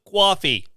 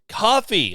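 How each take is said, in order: First: It is said in a New York accent. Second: It is said in the speaker's plain accent.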